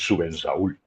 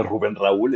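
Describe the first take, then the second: First: "Rubén Raúl" with the R sounds dropped and slurred, as /ubens aul/; mock his old struggle, swallowing the R in "Rubén Raúl"; "Rubén Raúl" said without a proper trilled R, a bit lower; mispronounced R. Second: Said in the usual way. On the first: Shown as a demonstration. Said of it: "Así". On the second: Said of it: "llamándome Rubén Raúl estaba difícil".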